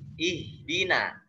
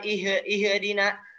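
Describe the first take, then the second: First: The first syllable is clean, without a bounce. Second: The first syllable has an echoing bounce. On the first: The speaker calls it right. "Tapi ihdina" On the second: The speaker calls it wrong. "Jangan sampai ada pantulan"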